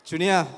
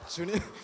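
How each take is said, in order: First: The name is called out loudly. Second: The name is called softly and sweetly.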